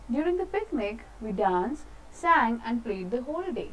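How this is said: It has short pauses between the listed actions. The speaker calls it right. "When ever there is comma you have to stop somewhere"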